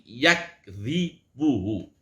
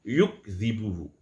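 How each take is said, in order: First: The first syllable has an 'a' vowel. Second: The first syllable has a 'u' vowel. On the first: "Ya-nya berharokat fathah, kafnya mati" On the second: "Ada juga yang membacanya yukdzibuhu"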